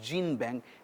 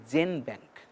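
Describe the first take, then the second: First: The first syllable sounds like 'gene'. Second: The first syllable sounds like 'gen'. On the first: The speaker calls it wrong. "it is not GeneBank" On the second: The speaker calls it right. "it is called GenBank"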